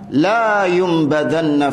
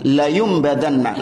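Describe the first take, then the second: First: The vowel in 'la' is drawn out long. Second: The vowel in 'la' is kept short. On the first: They will not be thrown into the fire. The speaker calls it wrong. "kalau dibaca panjang maknanya justru nafi" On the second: They will surely be thrown into the fire. The speaker calls it right. "Maka enggak panjang"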